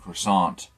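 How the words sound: It is pronounced the English way. "instead of saying croissant in English"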